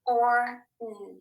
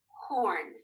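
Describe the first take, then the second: First: "Or, mm," as separate tapped sounds, held apart; segmented phonics demo, "Or" then a held "mm"; sounded out. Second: Said in the usual way. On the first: Shown as a demonstration. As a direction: sound out horn piece by piece, with gaps. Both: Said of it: "Tappers up, here we go".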